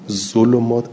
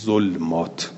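First: The L is followed by a u vowel. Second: The L has no vowel after it. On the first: This is the reading all main reciters agree on. "اجمع القراء على ذم اللام" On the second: This is a reading outside the seven canonical ones. "به سکون لام"

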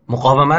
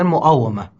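First: The consonant after 'mu' is a uvular q. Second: The consonant after 'mu' is a glottal stop.

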